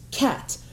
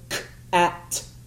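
First: The word is said whole without breaks. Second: The word is broken into separate sounds. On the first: The sounds are put back together into a word. "the students would sweep it and they would say cat" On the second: The word is broken apart into its sounds. "I wouldn't say the whole word. I would just say k-at"

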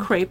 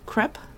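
First: It is said the American way. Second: It is said in a non-American way.

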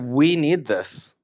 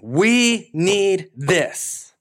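First: It is said in a calm, plain way. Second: It is said in a fiery, forceful way.

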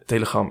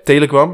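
First: The name is pronounced the Dutch way. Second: The name is pronounced the English way. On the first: The speaker calls it right. "Telegram, excuses" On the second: The speaker calls it wrong. "Ik doe het internationaal"

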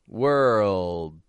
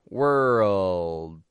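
No difference in how they are said.

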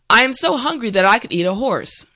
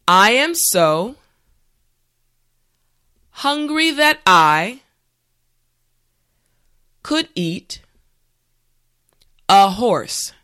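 First: The sentence is said at a natural pace. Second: The sentence is said slowly. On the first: "this time we will go at a more natural pace" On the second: "this time repeat after me"

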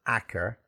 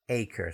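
First: The first vowel sounds like 'ah'. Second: The first vowel sounds like 'ay'. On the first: The speaker calls it wrong. "but it's not acre" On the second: The speaker calls it right. "It's acre"

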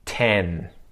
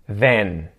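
First: The word begins with a t sound. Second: The word begins with a th sound. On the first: "and then a T sound" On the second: "pronounce with a TH"

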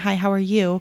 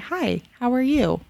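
First: The greeting is said quickly and hurriedly. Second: The greeting is said slowly and attentively. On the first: The greeting is a passing formality. The speaker calls it wrong. "not just be rushing by saying" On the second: The greeting shows real attention to the other person. The speaker calls it right. "actually look at them in the eye and say"

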